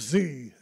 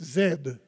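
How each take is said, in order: First: The letter is pronounced zee, American style. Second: The letter is pronounced zed, Australian style. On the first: "as they say that in America" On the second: "That's how we say it in Australia"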